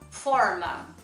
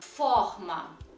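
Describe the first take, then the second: First: The R is a curled, English-like caipira sound. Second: The R is a dragged Rio de Janeiro sound.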